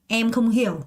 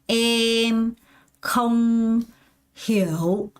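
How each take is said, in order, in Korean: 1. 문장 전체가 쉼 없이 이어져요. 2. 단어마다 쉼이 있어요. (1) "한 번에 통째로 가요" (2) "먼저 단어로 하나하나씩 다 끊어서 연습을 한다는 거예요"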